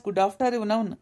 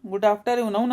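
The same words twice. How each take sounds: First: "good after ಇವ್ ನೌನ್" split as good-after-eve-noun; joking "ಇವ್ ನೌನ್" in place of noon; jokey mispronunciation. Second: Querying the odd "after ಇವ್ ನೌನ್"; questioning echo. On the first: Acted. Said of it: "good after ಇವ್ ನೌನ್ ಅಂತಿ?". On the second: Retold or imitated. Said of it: "ಅಂತಿ?".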